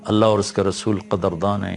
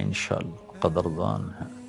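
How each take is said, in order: First: Said in the usual way. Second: Much softer, falling away; hushed repeat. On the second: Real, not acted. Preacher assuring that Allah rewards service, hushed repeat. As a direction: drop to a hushed, private assurance.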